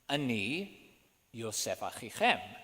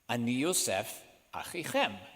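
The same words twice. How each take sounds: First: There is no pause right after Yosef. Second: There is a pause right after Yosef. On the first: He defines himself as the brother in one breath. "according to the cantillation marks" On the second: He is simply naming himself and then adding a relation. "with a pause after the word Joseph"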